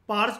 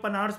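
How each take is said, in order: First: The name starts with a plain p sound. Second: The name starts with p followed by n. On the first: "आप इनको पार्स भी कह सकते हो" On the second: "कई लोग पनार्स भी बोल सकते हैं"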